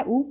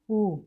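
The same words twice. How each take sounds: First: Short उ, said at once; short vowel. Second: Long उ, drawn out; long vowel. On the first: Teacher lists Hindi vowels by length, short vowel. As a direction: say उ briefly without stretching. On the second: Teacher lists Hindi vowels by length, long vowel. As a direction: stretch the उ sound. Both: Shown as a demonstration. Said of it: "इस तरह से अंतर होता है".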